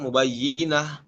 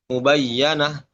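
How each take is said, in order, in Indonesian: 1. Vokal setelah y ganda adalah i. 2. Vokal setelah y ganda adalah a. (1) "Itu kan dibaca dengan kasroh ya" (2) "Imam Syu'bah membaca dengan fat fathah huruf ya-nya"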